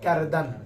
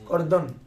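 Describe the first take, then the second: First: Both vowels are said as open 'a' sounds. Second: Both vowels are said as rounded 'o' sounds. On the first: This is the modern way of saying it. "আর এখন হবে কারদান" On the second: This is the older way of saying it. "আগে তো বলতে করদান করদন"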